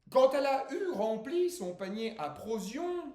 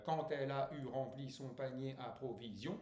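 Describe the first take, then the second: First: "provisions" cut to "prozion" in high, loud verse; syllable dropped. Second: Said in the usual way. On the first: Acted. (déclamé, « provisions » prononcé « prozion ») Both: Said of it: "ça faisait un pied de trop".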